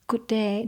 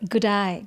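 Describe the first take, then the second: First: Day is said with a plain 'ay' vowel. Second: Day sounds like 'die', in a broad northern Australian accent.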